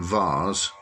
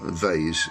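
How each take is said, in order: First: The syllable is said the non-American way. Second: The syllable is said the American way.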